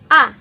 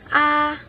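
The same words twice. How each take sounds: First: It is said with the fourth tone. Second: It is said with the high first tone. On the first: "第四声 A" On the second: "First tone, or 第一声 A"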